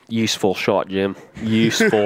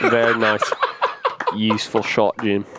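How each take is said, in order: First: Hushed golf commentary; golf commentator voice. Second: Golf commentator voice. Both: Retold or imitated. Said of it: "my golf voice".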